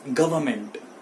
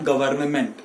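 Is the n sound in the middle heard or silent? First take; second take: silent; heard. First: The n sound in the middle is dropped. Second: The n sound in the middle is pronounced. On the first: The speaker calls it right. "ये जो एन है ये यहां पे silent होगा" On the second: The speaker calls it wrong. "It is not गवर्नमेंट"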